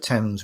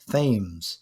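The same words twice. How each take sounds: First: The word has its usual, standard pronunciation. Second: The word has an odd, distorted pronunciation. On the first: The speaker calls it right. "instead of Thames" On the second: The speaker calls it wrong. "butchering some of the pronunciation"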